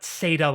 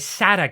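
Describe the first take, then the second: First: The first syllable sounds like in 'Satan'. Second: The first syllable sounds like in 'SATA cable'. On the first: The speaker calls it wrong. "not SATA like Satan" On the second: The speaker calls it right. "pronounced like a SATA cable"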